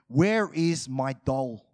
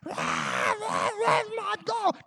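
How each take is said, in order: First: It is said in a calm, gentle voice. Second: It is said in a tearful, crying voice. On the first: "I'm saying this in a nice way" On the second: "She's crying"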